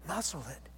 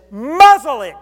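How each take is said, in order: First: Quiet. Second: Loud, high shout of command. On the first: Shown as a demonstration. Preacher repeats the rebuke quietly. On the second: Acted. Jesus shouting at the storm to be silent. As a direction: bark the order at the raging storm.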